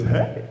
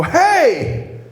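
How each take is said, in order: First: Said in the usual way. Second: High, loud "Hey!"; confrontational shout. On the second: Retold or imitated. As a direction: yell it at an unwelcome caller. Rips the door open on pastor.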